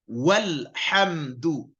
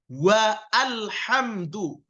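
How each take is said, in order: First: A short wa runs straight into lhamdu. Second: Wa is split from a separately voiced al. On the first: The speaker calls it right. "Jadi bacanya walhamdu" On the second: The speaker calls it wrong. "Bukan juga wa alhamdu, itu salah"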